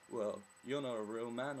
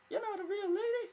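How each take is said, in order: First: Slightly put-on, loud dismissive quote; mock gatekeeper. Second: Very high, loud squeaky falsetto; bad woman's voice. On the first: Imitating someone policing gender, mock judgemental. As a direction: lightly imitate someone judging, louder. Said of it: "who would be like". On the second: Mocking someone policing gender, bad female falsetto. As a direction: badly fake a woman's voice, shrieked high. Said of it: "That's a really bad women accent".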